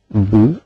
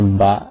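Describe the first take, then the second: First: The b is followed by a rounded u vowel. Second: The b is followed by an open a vowel. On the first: "tidak bisa B dibaca ... bu" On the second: "jadi tidak bisa B dibaca ba"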